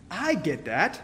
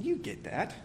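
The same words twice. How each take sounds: First: I lifted, sentence rises; stress on I. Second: You hit, sentence falls after it; stress on you. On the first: Preacher admitting his own fault, stress on I. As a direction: lean on the word I, owning it. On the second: Preacher nodding to the congregation, stress on you. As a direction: lean on the word you, then let it drop. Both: Shown as a demonstration.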